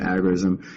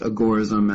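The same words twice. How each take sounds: First: The word starts differently from 'agora'. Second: The word starts the same way as 'agora'. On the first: This is the form most people now use. "most of us, I think, have come to pronounce it agorism" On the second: This is the form the term's originator preferred. "he preferred it to be pronounced agorism, as in the agora"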